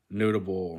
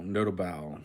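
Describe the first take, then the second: First: Said in the usual way. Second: "notable" as no-ta-BAL; full "bal" closing "notable"; last-syllable stress. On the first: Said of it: "In Spanish". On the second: Shown as a demonstration. Learner trying the Spanish, "notable" stressed on the end. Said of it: "the stress is on the last syllable".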